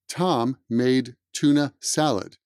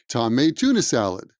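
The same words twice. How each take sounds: First: Each word is said separately, without linking. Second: The words are reduced and run smoothly together. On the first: The speaker calls it wrong. "That's not how we speak English" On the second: The speaker calls it right. "we prefer a smoother sound"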